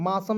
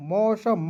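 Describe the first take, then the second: First: मासम opening on a plain aa, maa-sum; wrong pronunciation. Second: मौसम opening on an au sound, mau-sham; correct pronunciation. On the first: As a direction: say मासम with aa in place of au. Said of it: "नहीं पढ़ लीजिएगा". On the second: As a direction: say मौसम with a full au in the first syllable. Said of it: "मासम नहीं पढ़ लीजिएगा". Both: Shown as a demonstration.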